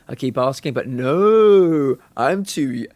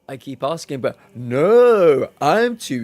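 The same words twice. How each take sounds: First: It is read out in a flat, plain voice. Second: It is performed in an expressive, acted voice.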